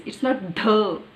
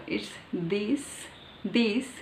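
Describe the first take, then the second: First: "the" with a hard t sound, loud; wrong "the". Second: "this" with the tongue between the teeth; soft th. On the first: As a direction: say "the" as a flat t. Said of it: "There is no the". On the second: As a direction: put the tongue out on "this". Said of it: "It's like this". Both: Shown as a demonstration.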